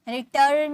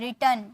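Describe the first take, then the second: First: The r before the final n is pronounced. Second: The r before the final n is silent. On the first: The speaker calls it wrong. "रिटर्न नहीं" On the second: The speaker calls it right. "टन आर silent"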